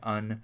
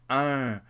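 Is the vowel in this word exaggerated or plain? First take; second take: plain; exaggerated. First: The vowel is said plainly, without exaggeration. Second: The vowel is said with strong exaggeration. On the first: The speaker calls it wrong. "I was probably saying un" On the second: The speaker calls it right. "she was really exaggerating"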